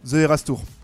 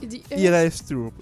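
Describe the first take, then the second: First: It is said with a French accent. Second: It is said with an English accent. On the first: "En français" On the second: "Mon accent anglais"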